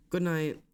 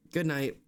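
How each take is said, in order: Both takes have the same delivery.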